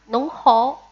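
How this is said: It is said with Shanghainese pronunciation. "En shanghainés se dice nong hao"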